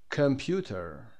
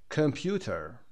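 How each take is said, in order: The two takes are said the same way.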